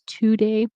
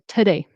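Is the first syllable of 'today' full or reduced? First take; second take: full; reduced. First: The first syllable has a full vowel. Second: The first syllable has a weak, reduced vowel. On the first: "it's not always today" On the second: "it's reduced to today"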